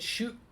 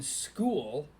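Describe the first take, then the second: First: The word begins with a 'sh' sound. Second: The word begins with an 'sk' sound. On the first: The character's usual quirky mispronunciation. The speaker calls it wrong. "he pronounces school as shul" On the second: The character corrects himself to the normal form. The speaker calls it right. "and then has to change it"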